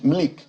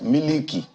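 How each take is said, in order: First: The word is squeezed into one syllable. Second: The word is said with three syllables. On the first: The speaker is trying to sound posh. "Trying to be Tush" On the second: This is the everyday local way of saying it. "they would normally pronounce it as Miliki"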